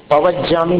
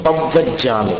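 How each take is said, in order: First: पवज्जामि with a single short व; the mistaken form पवज्जामि; wrong pronunciation. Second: पव्वज्जामि with a held, doubled व; the right form पव्वज्जामि, said carefully; correct pronunciation. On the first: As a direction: say पवज्जामि quickly, without doubling the व. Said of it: "पवज्जामि नहीं". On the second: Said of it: "पवज्जामि नहीं, पव्वज्जामि". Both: Shown as a demonstration.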